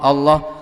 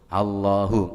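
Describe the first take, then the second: First: The word ends without a final hu syllable. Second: The word ends with a final hu syllable. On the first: The recitation loses its spiritual effect. The speaker calls it wrong. "Ini kalau dibaca Allah Allah Allah, yang nggak mandi" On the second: The recitation follows the form that was handed down. The speaker calls it right. "wong ijazahnya pakai hu"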